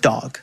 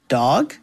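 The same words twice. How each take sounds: First: It is said with confidence. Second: It is said with little confidence.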